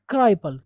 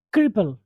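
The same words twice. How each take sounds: First: क्राइपल with a long "eye" sound; mispronunciation. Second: क्रिपल with a short i, "krip-pul"; correct pronunciation. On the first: Teacher showing students how not to read it, mispronunciation. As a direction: say क्राइपल as KRY-pul, the mistaken way. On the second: Teacher correcting students' reading of the word, correct pronunciation. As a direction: say क्रिपल as KRIP-ul, never with "eye". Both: Shown as a demonstration. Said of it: "not क्राइपल".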